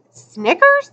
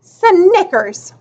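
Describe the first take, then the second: First: "Snickers" higher, rising at the end; questioning. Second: High "Snickers" with a falling end; said loud. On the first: Yawning boy querying the name "Snickers", questioning. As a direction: ask "Snickers" as a puzzled echo. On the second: Girl mocking the new name "Snickers", said loud. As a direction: announce "Snickers" with a drawn-out first sound. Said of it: "she said it loud". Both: A narrator's reading.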